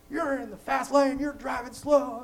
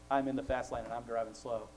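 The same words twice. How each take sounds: First: High, loud, slow mock yell at the slow driver; imitating a yell. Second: Said in the usual way. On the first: Angry driver yelling at him from the fast lane, a high loud mock yell. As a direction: bellow it like the angry driver behind you. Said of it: "he's yelling at me". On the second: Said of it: "his countenance changed".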